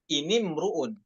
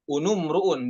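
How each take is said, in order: First: The first vowels are i sounds. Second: The first vowels are u sounds. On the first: The speaker calls it right. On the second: The speaker calls it wrong.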